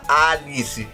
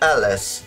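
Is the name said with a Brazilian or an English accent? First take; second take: Brazilian; English. First: The name is said with a Brazilian Portuguese accent. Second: The name is said with a native English accent. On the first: "ele não vai falar Alice" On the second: "no sotaque de um nativo, ... Ele vai chamar de Alice"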